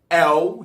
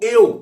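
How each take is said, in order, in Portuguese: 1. O ditongo começa com uma vogal aberta. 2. O ditongo começa com uma vogal fechada. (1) "de chapéu"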